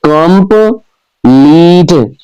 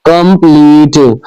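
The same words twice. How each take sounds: First: complete drawn out slowly, com-pleet, each syllable apart; slow syllable split. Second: Said in the usual way. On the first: Shown as a demonstration. Teacher sounding out a word so pupils count syllables, slow and spaced. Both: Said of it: "divide the given words into their syllables".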